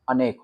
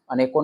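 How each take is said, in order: First: अनेक with no ending, a-nek; correct form. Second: अनेकों with the plural -on ending, a-ne-kon; wrong form named. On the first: Teacher giving students the correct word, no ending. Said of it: "अनेक होता है". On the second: Teacher quoting the wrong word to students, nasal ending. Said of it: "अनेकों नहीं होता है". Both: Shown as a demonstration.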